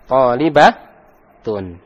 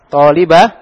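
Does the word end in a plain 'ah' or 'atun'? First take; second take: atun; ah. First: The word ends in a full 'atun' sound. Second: The word ends in a plain 'ah' sound. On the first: The speaker calls it right. "Dibaca tun" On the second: The speaker calls it wrong. "talibah kurang"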